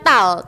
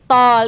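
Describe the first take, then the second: First: The vowel is an open, unrounded 'ah'. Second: The vowel is a rounded 'aw' sound. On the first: The speaker calls it wrong. "Nanti tidak boleh dibaca tal" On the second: The speaker calls it right. "tapi tol ya"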